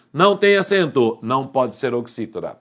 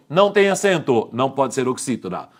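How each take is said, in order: Both takes have the same delivery.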